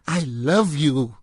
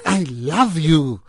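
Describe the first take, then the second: First: It is said in an intense, dramatic way. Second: The same.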